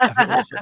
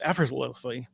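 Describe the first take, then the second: First: EFFORTLESSLY squashed short to "affersly", higher pitch; retry EFFORTLESSLY and swallow the middle; fumbled retry of EFFORTLESSLY. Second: EFFORTLESSLY slurred into "efferz-lowsly"; tripping over EFFORTLESSLY. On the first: Dispatcher mocking own slip to the host, fumbling EFFORTLESSLY. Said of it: "I can't even say that". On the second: Dispatcher describing veterans' complicated job, tripping over EFFORTLESSLY. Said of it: "if I can say that". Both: Real, not acted.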